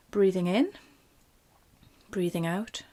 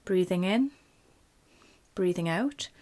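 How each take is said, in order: Both takes have the same delivery.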